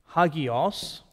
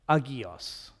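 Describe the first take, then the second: First: The word begins with an h sound. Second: The word begins without an h sound.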